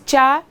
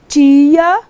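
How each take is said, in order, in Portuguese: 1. As vogais se juntam em uma só sílaba. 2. Ela é dita devagar, dividida em duas sílabas. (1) "Se você dissesse tia, você teria um ditongo" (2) "é tia, devagarzinho, você tem um hiato"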